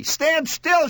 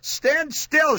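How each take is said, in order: First: High, sharp screamed order. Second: High-pitched yelled order. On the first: Mother with jammed finger orders son, screaming. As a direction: shriek it to freeze him. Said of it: "she screamed". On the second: Mother with trapped finger orders son, yelling. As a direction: yell it in pain. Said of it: "she yelled". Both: A narrator's reading.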